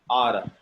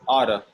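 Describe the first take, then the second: Both takes have the same delivery.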